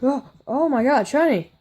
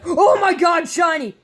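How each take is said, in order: First: It is said flatly, without excitement. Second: It is said with real excitement.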